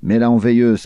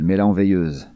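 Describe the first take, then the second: First: Louder growl on "Mets-la en veilleuse", weight on "en"; Brody snapping at the blonde, mild growl; growled order. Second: "mets-la en veilleuse" as a lighter, firm growled repeat; Brody repeating the order, understated growl. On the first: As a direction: snarl it at her, louder, dropping at the end. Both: A narrator's reading. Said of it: "Brody tourna ses dents vers elle et grogna".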